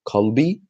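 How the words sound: It starts with a deep k sound from the throat. This is the standard form. "the letter Qaf"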